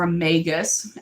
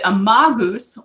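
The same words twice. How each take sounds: First: The word is said in an American way. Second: The word is said in a non-American way.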